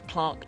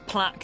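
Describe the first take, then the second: First: It is pronounced the southern English way. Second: It is pronounced the northern English way. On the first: "down south" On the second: "in the north"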